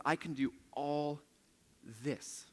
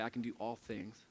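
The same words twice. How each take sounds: First: Pause, then land on "this."; stress on this. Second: Said in the usual way. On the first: Shown as a demonstration. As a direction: hold back, then give "this." its own weight. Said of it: "Do you notice what he says there?". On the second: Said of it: "Some of your versions are gonna say".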